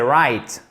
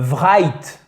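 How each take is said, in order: First: The word is pronounced the English way. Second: The word is pronounced the French way. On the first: The speaker calls it right. "non, c'est right" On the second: The speaker calls it wrong. "On ne prononce pas à la française"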